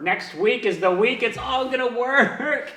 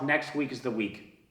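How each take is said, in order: First: Rising higher, last word drawn out; mock-optimistic self pep talk; mock hopeful mantra. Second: Low-key, softer self-assurance; soft private mantra; quiet self-talk. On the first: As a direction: hype yourself up with stretched, climbing optimism. Mantra repeated with mounting forced hope. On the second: Retold or imitated. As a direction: tell yourself quietly, almost under your breath. Quiet self-talk before louder repeat.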